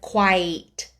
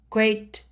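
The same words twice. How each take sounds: First: The pitch goes up and down. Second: The pitch stays level and forward. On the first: The speaker sounds stereotypical or comical. The speaker calls it wrong. "instead of" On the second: The speaker sounds dignified and profound. The speaker calls it right. "so more forward"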